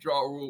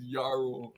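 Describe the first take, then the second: First: The name begins with a J sound. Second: The name begins with a Y sound. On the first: The speaker calls it wrong. "we've been calling him [name]" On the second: The speaker calls it right. "when he's [name]"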